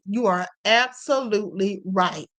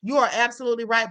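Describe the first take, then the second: First: ABSOLUTELY drawn out slowly, each syllable stressed; slow right down and weigh ABSOLUTELY; emphatic agreement. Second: Said in the usual way. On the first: Real, not acted. Host repeating her agreement with a viewer, slow stress on ABSOLUTELY.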